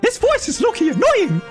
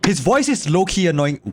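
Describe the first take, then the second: First: It is read in a put-on silly voice. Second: It is read in a plain natural voice.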